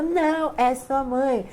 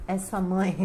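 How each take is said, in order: First: Higher and louder, laughing as she insists; repeating the tea's answer, louder and excited; excited insistence. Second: Said in the usual way. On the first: Retold or imitated. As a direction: push it back louder and higher. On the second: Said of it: "A chá fazia assim".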